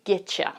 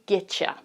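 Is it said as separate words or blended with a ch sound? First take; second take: blended; blended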